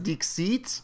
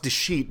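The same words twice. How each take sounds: First: The word is said without sounding like 'deceit'. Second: The word is said to sound like 'deceit'. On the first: It follows the word's French-style origin. The speaker calls it right. "a French or French-ish pronunciation of a Latin word" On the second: It hints that the game is about deception. The speaker calls it wrong. "it makes it sound like deceit"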